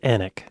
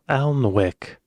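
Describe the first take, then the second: First: The L and W are silent. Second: The L and W are sounded, as spelled. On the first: The speaker calls it right. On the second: The speaker calls it wrong.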